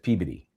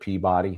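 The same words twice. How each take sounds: First: It is pronounced differently from its spelling. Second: It is pronounced the way it is spelled. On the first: This is how it is really said. The speaker calls it right. "No, no, no. That's Peabody" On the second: This is how outsiders say it. The speaker calls it wrong. "which most people would say is Peabody"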